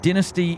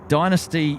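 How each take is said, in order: First: The word has an Australian pronunciation. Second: The word has an American pronunciation. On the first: "is Aussie" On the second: "is the U S pronunciation"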